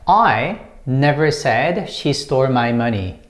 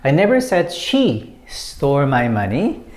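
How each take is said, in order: First: The stress falls on the word I. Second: The stress falls on the word she. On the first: Someone else said it. "the first one is I, and when you stress this one" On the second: It was not necessarily her who stole it. "When you put emphasis on she"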